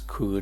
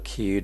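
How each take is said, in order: First: The vowel is a centralized New Zealand vowel. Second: The vowel is a standard short i. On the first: "they pronounce kud" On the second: "instead of kid"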